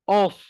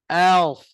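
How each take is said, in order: First: The vowel is rounded, sounding like o. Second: The vowel is open, sounding like a. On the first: The speaker calls it wrong. "bunyi dia tiba-tiba jadi O. ... Salah lah" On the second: The speaker calls it right. "Pastikan kita sebut A dulu"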